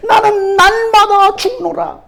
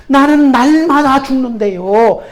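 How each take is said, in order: First: Slow and weighty, stress on 나는; slow solemn scripture line; solemn slow quote. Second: Said in the usual way. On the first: Shown as a demonstration. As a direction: draw out 나는 날마다 죽노라 gravely, falling at the end.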